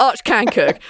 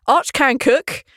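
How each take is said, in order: First: Arch stressed, falling and final; firm stress on Arch. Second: Arch lifted and rising, "can cook" follows; stress on Arch. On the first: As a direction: set it straight, weight on Arch. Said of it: "Don't mix up him and Balance". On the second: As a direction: insist on Arch with a rising tune. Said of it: "on behalf of Arch". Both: Shown as a demonstration.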